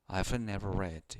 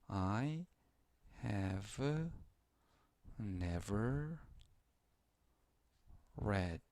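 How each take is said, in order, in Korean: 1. 'I have'는 'I've'로 줄여서 말합니다. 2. 'I have'는 풀어서 말합니다.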